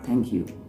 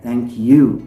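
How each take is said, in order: First: The stress falls on the word thank. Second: The stress falls on the word you. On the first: "not thank you" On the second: "we are using you with the greater stress, or we are emphasizing you here"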